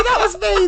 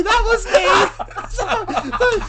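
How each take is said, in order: First: Quick high confession; tossed off high; high put-on voice. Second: Very slow, high and laughing; drawn-out laughing. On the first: [name] owning up in high put-on voice. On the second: Acted. [name] owning up again, slowly and laughing. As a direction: stretch it out while cracking up. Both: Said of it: "Oh, sorry".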